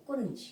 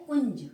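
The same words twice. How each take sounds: First: कुंज with a plain separate N; misspelt form. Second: कुंज loudly as one nasal syllable; correct pronunciation. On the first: Teacher reading out the error, कुंज with a full n. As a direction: say कुंज as "kun-j", N sounded fully. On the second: Teacher giving the right word, कुंज loud and joined-up. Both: Shown as a demonstration. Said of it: "सही शब्द क्या है".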